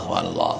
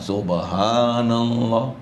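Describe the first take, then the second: First: It is said in a flat, lifeless tone. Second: It is said with a melodic, feeling tone.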